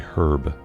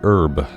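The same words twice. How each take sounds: First: The word starts with an h sound. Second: The word starts without an h sound. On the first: This form sounds like the name of the speaker's father. "so I don't have to say herb" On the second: This is the form the speaker uses. "I say herb"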